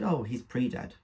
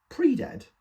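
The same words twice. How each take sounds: First: Said in the usual way. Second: Incredulous echo. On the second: Acted. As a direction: pitch leaps up, louder, in disbelief. Son echoes her word in disbelief.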